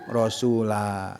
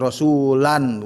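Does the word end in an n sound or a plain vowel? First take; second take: plain vowel; n sound. First: The word ends on a long plain vowel. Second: The word ends with an added n sound. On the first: The speaker calls it right. "kalau berhenti rasul, rasula ya" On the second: The speaker calls it wrong. "bukan rasulan"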